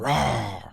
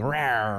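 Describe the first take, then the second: First: It sounds like a grown lion's roar. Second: It sounds like a small lion cub's roar.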